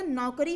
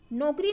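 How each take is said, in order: First: नौकरी with slow open "au"; correct नौकरी. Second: नौकरी with close "o", as nokri; mispronounced नौकरी. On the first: Teacher gives the right word, नौकरी as naukri, slowly. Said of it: "नौकरी होता है". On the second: Teacher rejects the misspelling, नौकरी said as nokri. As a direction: round the first vowel of नौकरी to o. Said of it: "नौकरी नहीं होता". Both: Shown as a demonstration.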